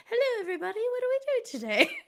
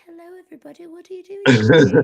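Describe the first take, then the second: First: Very high, put-on greeting voice; squeaky-high mock of someone's offstage voice; imitated real voice. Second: High-pitched mock British greeting; British accent. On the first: Teasing the host about his real voice, mock high greeting. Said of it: "are you gonna be like". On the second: Fan imitating the horror actor in person, high British accent. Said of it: "he's got this British accent".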